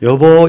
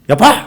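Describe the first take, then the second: First: It is said smooth and connected. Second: It is said short and clipped.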